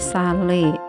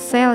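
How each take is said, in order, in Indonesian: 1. Diucapkan sebagai dua suku kata bahasa Indonesia. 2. Diucapkan seperti kata bahasa Inggris. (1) "Dibacanya sale juga" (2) "Not sell ya"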